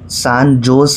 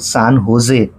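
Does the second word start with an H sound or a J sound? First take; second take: J sound; H sound. First: The second word starts with a J sound. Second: The second word starts with an H sound. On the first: The speaker calls it wrong. "San जोस नाही" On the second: The speaker calls it right. "San होजे असा त्याचा उच्चार आहे"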